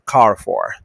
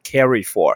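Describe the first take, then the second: First: The first part is said with one syllable, car. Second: The first part is said with two syllables, carry. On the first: The speaker calls it right. "是car for。" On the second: The speaker calls it wrong. "不是carry for"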